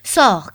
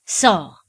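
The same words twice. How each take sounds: First: "Sors!" yelled even louder, falling hard; louder repeated shout. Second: A loud, sharp "Sors!" with a falling end; hurt prince ordering the servant out; shouted order. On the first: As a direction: repeat "Sors!" at full force. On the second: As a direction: throw "Sors!" at her as a first outburst. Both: A narrator's reading. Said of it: "cria-t-il à nouveau".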